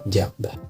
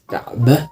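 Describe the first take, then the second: First: The word begins with a j sound. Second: The word begins with a k sound.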